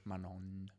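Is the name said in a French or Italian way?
Italian. It is said the Italian way, as written. "the Italians don't do this"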